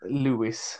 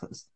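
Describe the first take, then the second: First: The name is said with a w-like u sound. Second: The name is said with a clear v sound. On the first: "vi kallar honom Lewis med U" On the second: "borde vara Levis utifrån stavning"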